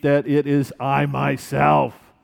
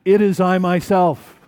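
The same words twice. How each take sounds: First: Slow, deliberate "that it is I myself"; calm, unhurried reassurance; slow and measured. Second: Louder "It is I myself" with a punch on "It"; firm emphatic declaration. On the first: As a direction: lay each word down slowly. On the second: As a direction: insist on "It is I myself", hitting "It". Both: Shown as a demonstration. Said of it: "he adds this emphatic".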